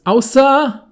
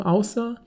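First: Loud, high exclamation. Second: Said in the usual way. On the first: Pretend. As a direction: blurt it out loudly. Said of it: "dann wird er richtig laut bei diesem Außer". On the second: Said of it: "dann wird er richtig laut bei diesem".

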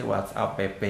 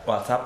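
First: "WhatsApp" read as whats-a-pe-pe; screen reader's misreading. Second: Said in the usual way. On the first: Retold or imitated. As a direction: imitate a reader spelling the end of "WhatsApp" as "pe-pe". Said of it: "dia misalkan beberapa masih". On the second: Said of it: "dia masih WhatsApp P P".

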